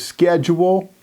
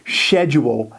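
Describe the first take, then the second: First: It is said with an American pronunciation. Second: It is said with a British pronunciation.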